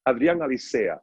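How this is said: The name is said the Spanish way.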